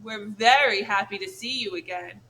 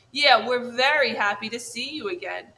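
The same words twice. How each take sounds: First: Dripping sarcasm. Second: Louder eager echo of his sister; little brother bear copying his sister; copycat echo. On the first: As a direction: fake the welcome, sneering. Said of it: "Her voice dripped with sarcasm". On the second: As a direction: parrot her line to back her up. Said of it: "echoed the brother bear". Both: Acted.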